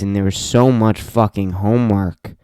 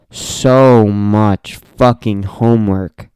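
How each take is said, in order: First: Said in the usual way. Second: "So much fucking homework" dragged out slow and louder; slow, heavy "So much fucking homework"; slow emphatic. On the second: Real, not acted. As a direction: stretch each word of "So much fucking homework". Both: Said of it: "repeated for emphasis".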